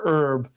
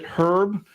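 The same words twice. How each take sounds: First: The word begins with no h sound. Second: The word begins with an audible h sound.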